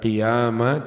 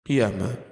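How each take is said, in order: First: The vowel after the y is long. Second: The vowel after the y is short. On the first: This is the majority reading. "bukan qiyama" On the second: This is the reading of Nafi' and Medina. "biduni alif dengan tanpa alif"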